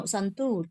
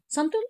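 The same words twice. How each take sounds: First: "Santur" said right, lower, with a long oo; now the right "Santur", long vowel; correct pronunciation. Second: "Santur" said the wrong way, higher, with a short oo; wrong pronunciation. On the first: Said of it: "no, Santur". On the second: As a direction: demo the mistake on "Santur". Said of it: "you will say". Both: Shown as a demonstration.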